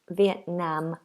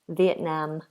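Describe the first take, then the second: Both takes have the same delivery.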